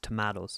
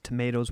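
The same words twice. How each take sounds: First: It is said with an Irish accent. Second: It is said with an American accent. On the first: This is how Irish listeners say it. "For any of our Irish listeners, what he means is" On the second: This is how the other speaker says it. "when he says tomatoes"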